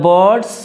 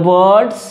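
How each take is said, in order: The two takes are said the same way.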